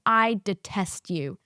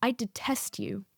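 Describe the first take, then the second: First: "detest" drawn out word by word; slow deliberate "I detest you". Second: Quiet cold "I detest you". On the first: Teacher stares student down, slow and deliberate. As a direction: lean slowly on each word of "I detest you". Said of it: "She picked the word detest". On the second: Teacher to student, a quiet icy put-down. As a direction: hiss it coldly as the teacher. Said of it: "She says". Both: Retold or imitated.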